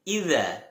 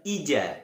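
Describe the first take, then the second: First: The middle consonant is a 'z' sound. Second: The middle consonant is a 'j' sound. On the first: The speaker calls it right. "Akan tetapi idza" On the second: The speaker calls it wrong. "Sekali lagi bukan ija"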